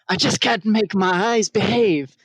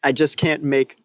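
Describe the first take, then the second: First: It is said in a put-on Petruchio voice. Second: It is read in the speaker's own voice.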